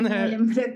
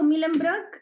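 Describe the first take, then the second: First: Mullenbrook with a rounded "myu" first syllable; parents' pretty pronunciation. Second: Mullenbrook with a plain "mi" first syllable; usual Spanish pronunciation. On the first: Retold or imitated. Guest copies her parents' nicer pronunciation, "Myu" in Mullenbrook. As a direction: say Mullenbrook as "MYU-lem-brok". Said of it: "lo pronuncian súper bonito". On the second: Shown as a demonstration. Guest shows how she has always said it, plain "Mi" in Mullenbrook. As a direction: say Mullenbrook as "MI-lem-brok". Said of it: "yo siempre le he dicho".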